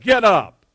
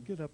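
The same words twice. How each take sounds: First: It is said in a sharp, stern tone. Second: It is said in a soft, gentle tone. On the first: The listener is being scolded to stop whining. "I bet he didn't say it in a very nice voice either" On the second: The listener is being coaxed kindly. "Probably didn't say, get up, little lamb"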